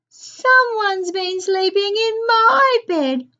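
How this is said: The voice is small and wailing. A little baby bear is speaking. "in a far from small voice"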